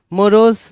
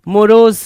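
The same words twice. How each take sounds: The two takes are said the same way.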